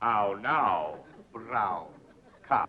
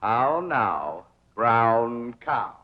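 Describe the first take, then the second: First: "How now, brown cop?" trailing off softer; fading diction drill. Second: "How now, brown cow?" with round vowels, rising on "How"; diction drill. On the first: The tutor repeats the drill, "How now, brown cop?" fading. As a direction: let "brown cop" die away. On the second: The tutor drills diction, "How now, brown cow?" drawn out. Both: Shown as a demonstration. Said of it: "practice diction and intonation".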